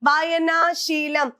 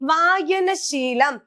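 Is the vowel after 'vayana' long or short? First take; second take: long; short. First: The vowel before 'sheelam' is lengthened. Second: The vowel before 'sheelam' is kept short. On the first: The speaker calls it wrong. "കുറേ നീട്ടലുകൾ കൊടുക്കും ... ഇതൊക്കെ തെറ്റാണ്" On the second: The speaker calls it right. "ഒന്നിനും നീട്ടലുകൾ ഇല്ല"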